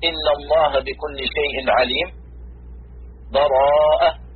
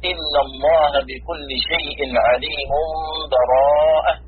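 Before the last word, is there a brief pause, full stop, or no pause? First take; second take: full stop; no pause. First: A full stop with a breath before the last word. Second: No break at all before the last word. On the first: "الوقف" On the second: "الوصل"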